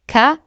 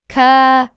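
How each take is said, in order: First: The vowel is short and quick. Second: The vowel is long and stretched. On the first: "the alif stretches the ka" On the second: "to ka"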